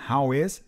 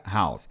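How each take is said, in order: First: "How is" said as two separate words; uncontracted form. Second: "how's" run together as one syllable; contracted form. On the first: Teacher unpacking the contraction for learners, uncontracted "How is". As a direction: say "How is" in full, is keeping its vowel. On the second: Teacher showing what it becomes, contracted "how's". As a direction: contract it to "how's", no vowel left from is. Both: Shown as a demonstration. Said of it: "ali tá contraído com o is".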